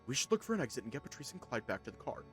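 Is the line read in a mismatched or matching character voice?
mismatched. It is read in another character's put-on voice. The speaker calls it wrong.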